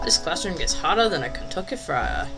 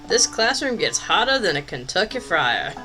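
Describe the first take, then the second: First: It is read in a put-on Southern accent. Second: It is read in the speaker's plain accent.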